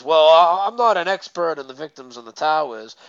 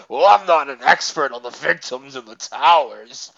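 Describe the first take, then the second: First: Lightly imitated brush-off; retold, lightly mocking dodge; mock sarcastic. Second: Exaggerated mocking imitation; hammed-up sarcastic excuse-maker. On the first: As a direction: quote the excuse with mild sarcasm. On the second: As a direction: mimic him in a put-on sarcastic voice. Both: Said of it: "in, like, a sarcastic voice".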